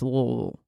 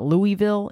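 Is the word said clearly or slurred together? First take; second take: slurred; clearly. First: The syllables are slurred and mumbled together. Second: The syllables are pronounced clearly and separately. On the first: The speaker calls it right. "You pronounce it as if you're having a stroke" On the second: The speaker calls it wrong. "It's not Louisville"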